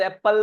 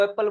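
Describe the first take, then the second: First: "એપલ" with a heavy, doubled p; stress on P. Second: "એપલ" as the British say it, light p; British "એપલ", stress on the first vowel; British pronunciation. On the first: Shown as a demonstration. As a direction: lean hard on the p in "એપલ". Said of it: "તો એમાં પ ઉપર ભાર આપીએ". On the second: Retold or imitated. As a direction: say "એપલ" without leaning on the p. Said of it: "બ્રિટિશરો એપલ બોલે ને".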